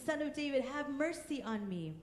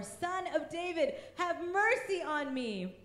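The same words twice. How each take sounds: First: Said in the usual way. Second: Plea lifted higher, slowed, mercy stretched; pleading cry. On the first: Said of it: "he began to shout". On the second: A narrator's reading. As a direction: call out the plea more urgently. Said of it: "he shouted all the more".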